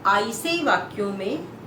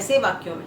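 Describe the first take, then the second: First: The first word is split into two parts. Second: The first word is said smoothly as one word. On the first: It sounds like a letter name followed by a separate word. The speaker calls it wrong. "हमारे एक teacher बोलते थे" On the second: It means 'in such sentences'. The speaker calls it right. "वो कह रहे हैं ऐसे वाक्यों में"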